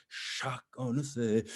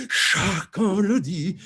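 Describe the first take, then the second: First: "chacun le sait" slow, with long opening consonant; weighted upbeat. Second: "chacun le dit" high, loud and stretched; emphatic upbeat. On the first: Coach models first line for singer, weighted slow "chacun". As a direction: linger into "chacun" before releasing it. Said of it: "like that upbeat". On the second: Coach shows how to pull people in, emphatic "chacun le dit". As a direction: launch "chacun" with a long consonant and big punch. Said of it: "that'll bring people in". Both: Shown as a demonstration.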